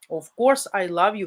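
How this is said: It is said with warm, joyful emotion. The speaker sincerely reassures her of his love. The speaker calls it right. "necessarily with unbridled joy in the voice"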